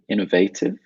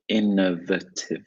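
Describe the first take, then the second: First: Said with strong stress on the 'va' syllable. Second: Said quickly, without stress on the 'va' syllable. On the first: "you would stress the A" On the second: "Very quick"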